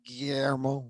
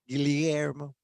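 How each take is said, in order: First: The double L sounds like 'y'. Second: The double L sounds like 'ly'. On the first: It follows the later common Spanish way. "the double L's as the Y Y" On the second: It follows the older Castilian way kept by Filipinos. "the double L's as L Y"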